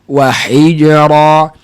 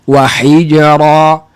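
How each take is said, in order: No difference in how they are said.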